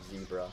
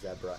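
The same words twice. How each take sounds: First: It is said the speaker's own, non-Australian way. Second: It is said the Australian way.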